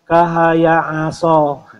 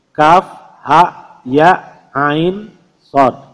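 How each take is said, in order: First: The letters are run together as short syllables. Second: Each letter is read separately by its full name. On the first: The speaker calls it wrong. "bukan kahaya aso" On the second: The speaker calls it right. "Cara membacanya adalah dengan membaca nama hurufnya"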